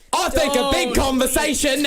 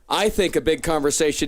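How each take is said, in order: First: It is said in a put-on British accent. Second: It is said in a plain American accent.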